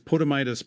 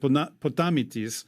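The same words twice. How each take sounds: First: The name is said with an English pronunciation. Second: The name is said with a Greek pronunciation. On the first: "you might see it as" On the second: "in Greek, I would pronounce it"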